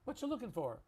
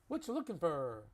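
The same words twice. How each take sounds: First: The last word is said like for. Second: The last word is said like fur. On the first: "So I'm going to just change that to for" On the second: "That's a little little bit southern when you say fur instead of for"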